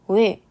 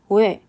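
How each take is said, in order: The two takes are said the same way.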